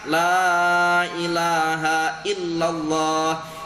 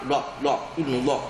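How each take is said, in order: First: The opening 'la' is drawn out long. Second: It is rushed, with the 'la' clipped short. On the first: The speaker calls it right. "lamnya itu dibaca dengan panjang" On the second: The speaker calls it wrong. "sangat kuat dan sangat apa cepat-cepatnya"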